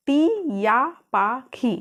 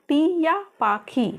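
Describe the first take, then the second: First: टिया पाखी drawn out very slowly, each syllable lengthened; very slow pronunciation. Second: टिया पाखी stretched slow, a touch higher; slow model pronunciation. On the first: Teacher drilling टिया पाखी extra slowly for beginners. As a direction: linger on every sound of टिया पाखी. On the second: Teacher repeating टिया पाखी slowly to her students. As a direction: draw out टिया पाखी for learners. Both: Shown as a demonstration. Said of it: "क्या बोले?".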